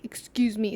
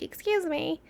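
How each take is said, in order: First: "Excuse me" dry and falling, sarcastic. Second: Higher polite excuse me. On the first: Cyclist who should apologize, sarcastic excuse me. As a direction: say it with a sneer. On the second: How people usually say excuse me, politely. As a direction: ask politely. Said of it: "you know how people are like". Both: Shown as a demonstration.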